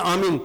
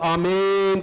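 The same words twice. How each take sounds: First: The word is said quickly and short. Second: The word is stretched out and drawn long. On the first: "एकदम से कहते हैं" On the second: "थोड़ा सा हम लंबा करके पढ़ते हैं"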